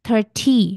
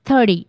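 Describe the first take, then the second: First: The middle t is a crisp, clear t. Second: The middle t sounds like a soft d. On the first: "ব্রিটিশ প্রোনাউন্সিয়েশনে" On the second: "ওরা তখন একটু ডি sound এসে পড়ে"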